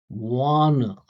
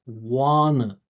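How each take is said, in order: No difference in how they are said.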